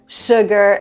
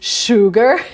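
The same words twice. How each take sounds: First: The vowel is said with spread, smiling lips. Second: The vowel is said with rounded lips. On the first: The speaker calls it right. "it's kind of a smile" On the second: The speaker calls it wrong. "oo sound, this is the way we pronounce it"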